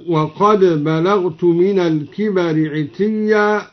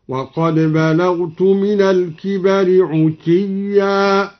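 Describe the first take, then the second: First: Said in the usual way. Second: Slow chanted verse with عتيا said "utiyya"; measured recitation, u after the ayn in عتيا. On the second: Shown as a demonstration. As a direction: round the first vowel of عتيا to u. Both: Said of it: "ضم العين".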